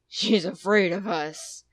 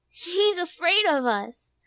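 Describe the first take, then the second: First: It is said in a big, deep bear voice. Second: It is said in a small, shrill voice.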